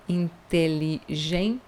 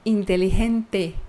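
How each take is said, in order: First: Inteligente slow and soft, chi ending; Portuguese-style inteligente. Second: Inteligente with a clean te ending; Spanish inteligente. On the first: Teacher showing the Portuguese habit. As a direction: say Inteligente the Brazilian way. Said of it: "nós dizemos ti". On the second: Teacher giving correct Spanish inteligente. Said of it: "Em espanhol isso não existe". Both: Shown as a demonstration.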